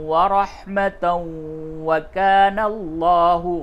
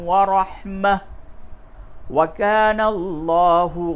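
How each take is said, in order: First: It runs 'rahmatan' straight into the next word. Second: It stops after 'rahmah', ending it with 'h'. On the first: "एक सांस में पढ़ेंगे तो फिर इस जगह पे इदगाम करें" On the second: "वक्फ की हालत में पढ़ा"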